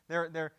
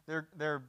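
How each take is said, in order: Both takes have the same delivery.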